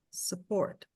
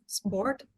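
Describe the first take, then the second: First: Support in two syllables, softer, set against sport; English pronunciation. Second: Sport in one syllable, set against support; one tight syllable on Sport; English pronunciation. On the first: Teacher contrasting support with sport. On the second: Teacher contrasting Sport with support. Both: Shown as a demonstration. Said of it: "Vocês conseguem perceber essa diferença?".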